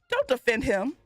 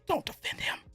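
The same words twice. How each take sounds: First: It is spoken in a normal voice. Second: It is spoken in a whisper.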